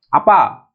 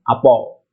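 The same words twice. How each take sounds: First: The word ends with an a vowel. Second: The word ends with an o vowel. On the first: "misalkan apa" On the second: "akan dirubah menjadi apa"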